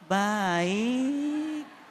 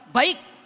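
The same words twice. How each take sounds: First: It is said softly, drawn out and lilting. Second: It is said plainly and firmly, without lilting.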